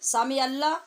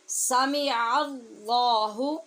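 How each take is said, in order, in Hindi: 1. अल्लाह में L पतला और हल्का सुनाई देता है। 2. अल्लाह में L भारी और भरा हुआ सुनाई देता है।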